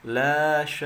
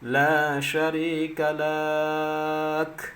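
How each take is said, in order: First: The vowels are kept short. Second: A vowel is drawn out long. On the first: The speaker calls it right. "Yang benarnya" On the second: The speaker calls it wrong.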